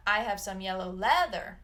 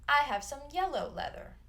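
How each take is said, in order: First: "leather" hit hard, louder, at the end; wrong stress on leather. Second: "yellow" carries the weight, "leather" light; stress on yellow. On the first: Teacher shows students the wrong stress on leather. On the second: Teacher shows students the right stress on yellow. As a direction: lift on yellow, let leather fall. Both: Shown as a demonstration.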